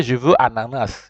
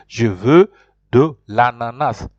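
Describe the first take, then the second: First: Said in the usual way. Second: Slow, firm French, "Je veux" louder and set apart; correct model phrase. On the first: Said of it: "You can't say". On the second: Shown as a demonstration. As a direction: spell out the correct phrase slowly. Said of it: "You have to say".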